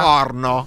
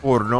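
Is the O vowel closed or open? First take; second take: open; closed. First: The O vowel is full and open. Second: The O vowel is small and closed. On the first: The speaker calls it right. "con la O bella piena, bella larga" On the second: The speaker calls it wrong. "con la O piccola così"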